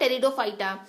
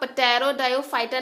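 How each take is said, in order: First: The initial p sound is silent. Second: The initial p sound is pronounced. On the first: The speaker calls it right. "पी के साथ जब आप T लगाते हो तो ये साइलेंट हो जाता है" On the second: The speaker calls it wrong. "इसको आप पटेरोडायोफाइटा नहीं बोलोगे"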